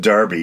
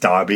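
First: It is said with an American pronunciation. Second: It is said with a British pronunciation. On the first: The speaker calls it wrong. "So it's not like Demolition Derby" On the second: The speaker calls it right. "it's Derby"

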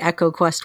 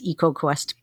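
First: The first vowel is a short e, as in echo. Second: The first vowel is a long e, as in eek. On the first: "I think it's supposed to be EcoQuest what you're saying" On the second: "in my head it's EcoQuest because it's only got one consonant between the two vowels"

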